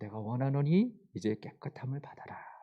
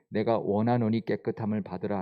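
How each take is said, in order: First: It is said warmly and tenderly. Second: It is read flatly, without emotion.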